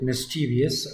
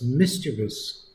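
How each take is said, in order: First: The word is said with four syllables. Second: The word is said with three syllables. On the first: The speaker calls it wrong. "I don't believe in pronouncing it mischievous" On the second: The speaker calls it right. "I say it's mischievous"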